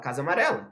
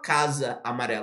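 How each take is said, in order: First: The two words are linked, sharing one vowel. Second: The two words are said separately, both vowels kept. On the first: The speaker calls it right. "a gente usou só um lá só" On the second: The speaker calls it wrong. "a gente não fala casa amarela"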